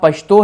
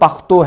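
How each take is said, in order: First: The middle consonant is an 'sh' sound. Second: The middle consonant is a 'kh' sound. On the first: This is one of the two major dialects. "एक में शीन की आवाज हमें आ रही है" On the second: This is the other major dialect. "दूसरे में खे की आ रही है"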